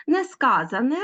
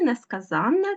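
First: Несказане stressed on -SKA-, rising; stress on the root. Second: Несказанне stressed on -ZAN-; stress on the suffix. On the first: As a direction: say Несказане as ne-SKÁ-za-ne. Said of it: "звертайте увагу на наголос". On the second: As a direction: say несказанне as ne-ska-ZÁN-ne. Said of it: "в наголошеному суфіксі". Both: Shown as a demonstration.

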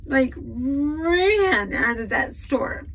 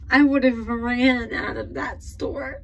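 First: "ran" drawn out long and pushed up high; real, emphatic, lingering on "ran"; stress on ran. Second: Said in the usual way. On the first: Real, not acted. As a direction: stretch the word "ran" slowly for emphasis. Repeats the line, stretching the verb.

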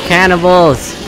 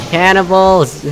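The two takes are said the same way.

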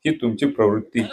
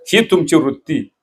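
First: प्रवृत्ती said lower and softer, ही stressed; softer pointed echo. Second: Said in the usual way. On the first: Real, not acted. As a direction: drop the voice for the sharper word. (ही वर जोर, हळू आणि खालच्या आवाजात प्रवृत्ती)

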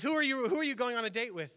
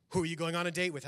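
First: Higher, louder, faster, laughing as you ask; hammed-up jealous husband cracking up; mock jealous outburst. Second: Said in the usual way. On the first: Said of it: "he goes". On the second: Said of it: "he goes, uh".

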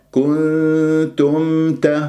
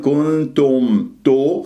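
First: Slow "كنتم ت" with long nasal, then a distinct m before t; clear meem. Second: "كنتم تو" with the final syllable distorted toward o; wrong rounded ending. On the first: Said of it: "والميم مظهرة". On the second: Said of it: "ولا أقول". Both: Shown as a demonstration.

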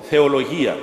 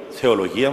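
First: Said in the usual way. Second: Θεολογία echoed back, lower, with a rising tune; elder echoing the student's choice, rising; echoing question. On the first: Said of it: "του λέω". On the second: Retold or imitated. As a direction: repeat Θεολογία as a musing query rising at the end. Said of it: "μου λέει".

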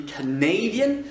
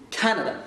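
First: Canadian stressed on the second syllable, -NA-; stress moved later. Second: Canada stressed firmly on CA; first-syllable stress. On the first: Teacher contrasts it with the country name, later stress. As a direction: push the accent back to the NA of Canadian. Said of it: "l'accent est déplacé vers le fond". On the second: Teacher contrasts country and adjective for learners, stress up front. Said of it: "c'est sur l'accent tonique et sur la première syllabe". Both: Shown as a demonstration.

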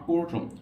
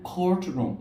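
First: "courtroom" with no puff after the c; unaspirated c opening "courtroom". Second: "courtroom" with a puff after the c; aspirated k. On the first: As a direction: say "courtroom" with a hard, dry k. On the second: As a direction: say "courtroom" as "khourtroom". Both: Shown as a demonstration. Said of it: "not courtroom".

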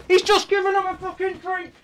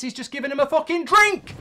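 First: Higher disbelieving repeat; incredulous. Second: Said in the usual way. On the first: Real, not acted. Fan repeating the complaint about Southgate, incredulous higher.

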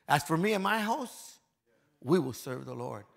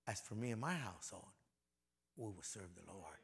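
First: A bold public vow; loud declaration. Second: Much softer and lower, As for me and my household; a quiet personal promise; soft, hushed vow. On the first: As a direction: proclaim it to the whole room. Declaring Joshua's vow to the church. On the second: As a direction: say it almost to yourself. Repeating Joshua's vow softly. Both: Shown as a demonstration.

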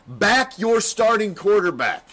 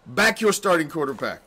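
First: Slow and louder, stress on your; slow, pitched-up rallying order; emphatic command. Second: Said in the usual way. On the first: Acted. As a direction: lean into your, slow and forceful.

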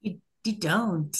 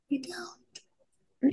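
First: Said in the usual way. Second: Whispered repeat. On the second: Real, not acted. Agreeing with co-host about the missing title song, whispered. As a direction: whisper it, much softer.

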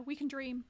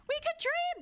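First: Said in the usual way. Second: High-pitched, playful cry; excited exclamation. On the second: Pretend. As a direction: burst out with mock-hopeful enthusiasm. Repeats it as an exclamation.

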